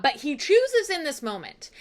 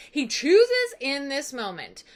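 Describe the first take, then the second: First: Said in the usual way. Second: "chooses in this moment" slowly, word by word; deliberate emphasis. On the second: Shown as a demonstration. Repeats the point for emphasis.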